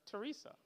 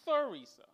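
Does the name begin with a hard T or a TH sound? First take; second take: hard T; TH. First: The name begins with a hard T sound. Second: The name begins with a TH sound. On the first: The speaker calls it wrong. "I still end up calling her Teresa" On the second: The speaker calls it right. "Got to get that TH in there"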